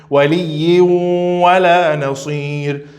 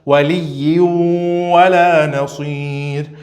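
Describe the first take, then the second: The two takes are said the same way.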